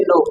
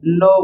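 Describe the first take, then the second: First: "no" with a short, pure o; "no" as spelt with a plain Bengali o-kar; common mispronunciation. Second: "no" with a gliding o-u vowel; "no" said as "noh-oo", one syllable; correct pronunciation. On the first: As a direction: say "no" without gliding the vowel. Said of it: "ভুলটা হচ্ছে no". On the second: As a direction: round "no" off into an u glide. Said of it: "সঠিক উচ্চারণ হবে". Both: Shown as a demonstration.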